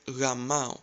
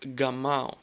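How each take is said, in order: First: The first consonant is a soft W-like sound. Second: The first consonant is a hard G sound. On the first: The speaker calls it right. "if you replace G with W, it sounds like Gamao" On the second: The speaker calls it wrong. "you would probably pronounce it like Gamao"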